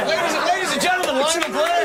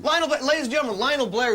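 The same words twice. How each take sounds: First: High, fast, hyped compere; big showbiz announcer. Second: Presenter voice, mildly raised; showbiz introduction. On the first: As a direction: sell the name to the crowd. Repeats intro bigger, after teasing. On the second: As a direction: introduce the guest like a host. Introducing a guest showbiz-style. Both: Acted.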